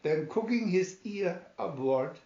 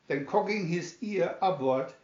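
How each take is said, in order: Both takes have the same delivery.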